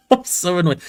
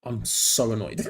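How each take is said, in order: First: Amused at your own annoyance, laughing it out. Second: Said in the usual way. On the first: Real, not acted. Football fan laughing at her team's loss to viewers. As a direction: laugh through the words, a bit higher and louder.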